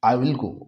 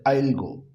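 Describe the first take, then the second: First: 'Will' is said as a full separate word. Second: 'Will' is shortened and joined to 'I'.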